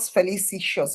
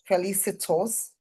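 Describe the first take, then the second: First: The ending is said with a 'sh' sound. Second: The ending is said with a 't' sound. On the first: The speaker calls it wrong. "It's not shows. There's no I in it" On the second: The speaker calls it right. "Felicitous, felicitous, not felicitious"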